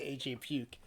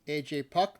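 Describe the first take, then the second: First: The surname rhymes with duke. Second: The surname rhymes with duck.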